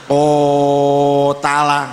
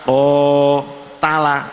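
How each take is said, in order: First: The first vowel is stretched far too long. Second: The first vowel is held moderately long. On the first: The speaker calls it wrong. "jangan terlalu panjang, jangan ko tala" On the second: The speaker calls it right. "tapi ko tala, itu namanya sudah menunjukkan panjang"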